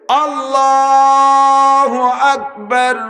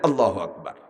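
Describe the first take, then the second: First: It is drawn out long. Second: It is said short and quick.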